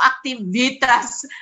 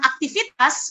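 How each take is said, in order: First: The middle consonant is pronounced as v. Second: The middle consonant is pronounced as f. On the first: "Tidak pernah kita mengatakan aktivitas dengan V" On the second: "dengan F"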